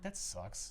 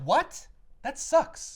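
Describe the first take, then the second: First: Low, soft disappointment; deflated grumble. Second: High, loud, disbelieving protest; indignant outburst. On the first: Fan reacting to the broken-up partnership, quietly let down. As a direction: say it small and dejected. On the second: Fan reacting to the broken-up partnership, loud indignation. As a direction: blurt it out, appalled and raised. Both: Retold or imitated.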